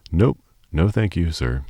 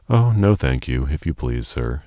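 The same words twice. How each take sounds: First: Gasping. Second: Stammering. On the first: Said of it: "she gasped". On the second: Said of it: "Sophie stammered". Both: Acted.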